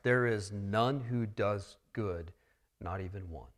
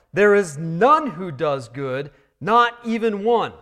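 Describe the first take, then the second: First: Quiet restatement. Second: Loud proclamation. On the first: Preacher gently repeating the verse to the church, soft. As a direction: lower the voice and let it land. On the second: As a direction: hammer it out like a proclamation. Proclaiming gospel truth, Romans three. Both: Acted.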